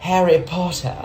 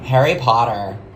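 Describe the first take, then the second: First: It is said in a British accent. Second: It is said in an American accent.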